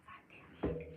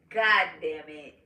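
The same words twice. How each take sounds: First: Retold curse, barely voiced whisper. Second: Slow, voiced retold curse; drawn-out curse. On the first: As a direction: whisper it as a private reaction. Retold muttered reaction to bad news. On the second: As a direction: say the curse aloud and stretch it out. Same curse repeated aloud, drawn out.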